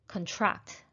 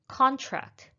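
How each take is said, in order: First: The stress is on the second syllable. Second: The stress is on the first syllable. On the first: It is used as a verb. "That is the verb, stressed, stressing the second syllable" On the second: It is used as a noun. "We signed the contract to our new apartment"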